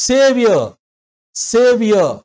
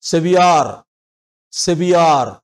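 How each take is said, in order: First: సేవియర్ with a long సే, a short యర్ and no r; correct Saviour. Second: సెవియార్ with a long "yaar" and a full r; imitating the student's సెవియార్; mock wrong pronunciation; wrong Saviour. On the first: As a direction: model సేవియర్ the right way. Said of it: "వినండి Google-లో". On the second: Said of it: "ఈ పదాన్ని ఎలా పలికారో తెలుసా". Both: Shown as a demonstration.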